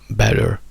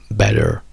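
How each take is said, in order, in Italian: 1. Il finale è una schwa seguita da una R. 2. Il finale è una schwa seguita da una R.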